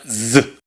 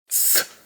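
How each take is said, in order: First: The z is voiced, with vibrating vocal cords. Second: The z is said as in Latin America. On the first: The speaker calls it right. "Se pronuncia z. Recordemos, es sonora, vibran las cuerdas vocales" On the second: The speaker calls it wrong. "ni tampoco como en Latinoamérica"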